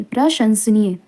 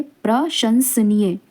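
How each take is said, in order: First: Said in the usual way. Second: प्रशंसनीय slowly, split as प्र, शंस, नीय; slow, broken up. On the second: Shown as a demonstration. Teacher asks for close attention, slow and broken up. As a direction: break प्रशंसनीय into careful pieces. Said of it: "देखिए इसको ध्यान से देखिए".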